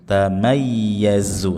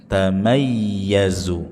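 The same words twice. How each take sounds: The two takes are said the same way.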